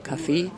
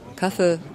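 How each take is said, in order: First: The stress is on the second syllable. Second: The stress is on the first syllable. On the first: It refers to a way of life. "Die Betonung auf der zweiten Silbe aber eine Lebensform" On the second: It refers only to a drink. "Die Betonung auf der ersten Silbe bezeichnet nur ein Getränk"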